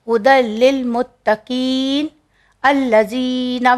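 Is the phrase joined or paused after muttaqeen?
paused. There is a stop after muttaqeen. "भी पढ़ सकते हैं"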